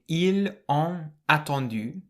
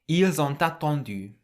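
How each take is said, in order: First: The final s and t are silent. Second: The s sounds like z; t links onward. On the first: "rather than saying" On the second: "the S on the end of il can be pronounced like a Z, and the T on the end of on can link with the A"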